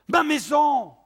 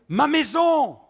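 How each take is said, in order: The two takes are said the same way.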